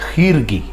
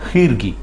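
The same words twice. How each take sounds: Both takes have the same delivery.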